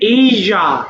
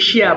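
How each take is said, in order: First: It is said with a 'zh' sound. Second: It is said with an 'sh' sound. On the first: The speaker calls it right. "But এটা হবে এইজা" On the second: The speaker calls it wrong. "আর জন্য বলি এশিয়া"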